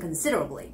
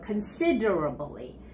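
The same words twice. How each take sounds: First: The word is said quickly. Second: The word is said slowly. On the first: "and then make it quicker, faster" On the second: "practice it several times slowly"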